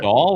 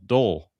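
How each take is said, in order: First: The vowel sounds like the one in 'doll'. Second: The vowel sounds like the one in 'dull'. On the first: "like as in a toy" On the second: "like D U L L"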